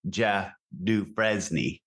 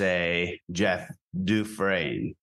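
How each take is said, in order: First: The name is said in a plain American way. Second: The name is said in a New Orleans French way.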